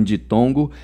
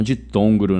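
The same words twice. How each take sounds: First: "ditongo", no r after the g; corrected ditongo. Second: "ditongro", with an extra r in the last syllable; mispronounced ditongo. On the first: Teacher correcting their own slip for students, "ditongo" without the r. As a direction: say "ditongo" cleanly, ending in plain "-go". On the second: Teacher quoting their own slip to students, "ditongro" with a wrong r. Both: Shown as a demonstration. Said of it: "Não ditongro, né? Um ditongo".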